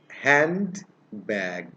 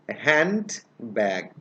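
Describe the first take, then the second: First: The word is split into two separate parts. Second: The word is split into two separate parts.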